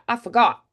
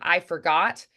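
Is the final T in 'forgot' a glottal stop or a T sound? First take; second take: glottal stop; T sound. First: The final T is a glottal stop. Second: The final T is an audible T. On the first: "certain uh, dialects will do that" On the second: "instead of"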